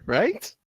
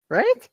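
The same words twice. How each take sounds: First: Said in the usual way. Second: Pitched way up in disbelief; incredulous high right. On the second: Real, not acted. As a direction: squeak it up, unsure.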